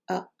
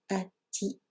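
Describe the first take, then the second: First: The ending is a bare 'a' with no 't'. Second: The ending is 'a' followed by 'ti'. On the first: The case ending is left out. "si on ne veut pas la prononcer, donc on va simplement prononcer le a qui précède" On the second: The case ending is pronounced. "En prononçant la déclinaison, on dirait donc ati"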